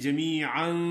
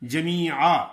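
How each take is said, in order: First: The word ends with an 'an' sound. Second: The word ends in a long 'aa' vowel. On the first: The reader continues without stopping. "अगर नहीं रुकना तो फिर कैसे पढ़ेंगे?" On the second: The reader stops after this word. "रुकेंगे तो जमीआ एक अलिफ के एक जबर के साथ"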